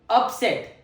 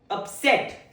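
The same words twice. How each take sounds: First: The stress is on the first syllable. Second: The stress is on the second syllable. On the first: It is a noun meaning a disturbance or unexpected defeat. "The first syllable is stressed on" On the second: It is a verb or adjective meaning to disturb or unhappy. "The second pronunciation"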